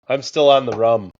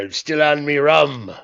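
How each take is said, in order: First: It is said in an ordinary everyday accent. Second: It is said in an exaggerated pirate accent.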